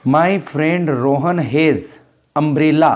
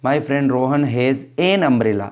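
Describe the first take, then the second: First: Slow, with a pause where the blank is in "has umbrella"; reading with a blank. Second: Slow, with the answer "an" stressed before "umbrella"; filled-in answer. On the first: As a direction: read it slowly and leave a gap before "umbrella". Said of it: "umbrella के आगे blank दिया हुआ है". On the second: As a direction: read it slowly and lean on "an". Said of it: "article आएगा एन". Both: Shown as a demonstration.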